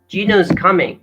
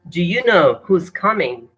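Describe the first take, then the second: First: 'Do you' blends into a 'j' with schwa. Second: 'Do you' is said as two full words.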